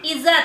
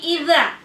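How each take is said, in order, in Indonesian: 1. Konsonannya adalah bunyi z biasa yang berdengung. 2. Konsonannya adalah bunyi lembut seperti th. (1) "jangan sampai za" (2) "tapi idza"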